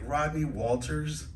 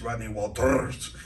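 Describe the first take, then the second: First: "Rodney Walters" read slowly with plain English R's, rising; suspicious officer saying "Rodney Walters" with unrolled R's. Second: "Rodney Walters" with strongly trilled R's; long Spanish trilled R in "Rodney Walters"; rolled R's. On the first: Acted. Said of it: "looked at me kinda suspicious". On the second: Shown as a demonstration. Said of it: "tell him to roll the R's".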